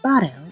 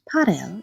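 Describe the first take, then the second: First: The word begins with a b sound. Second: The word begins with a p sound. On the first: This is the Western dialect form. "in Western Armenian" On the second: This is the Eastern dialect form. "in Eastern Armenian"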